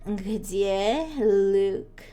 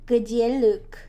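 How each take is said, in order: First: It is said in a sultry, seductive voice. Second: It is said in a plain, ordinary voice.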